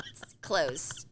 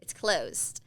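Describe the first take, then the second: First: Whispered. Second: Unvoiced whisper, a touch firmer; whispered again. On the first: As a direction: breathe the words out, no voice. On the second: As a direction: whisper it once more. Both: Real, not acted.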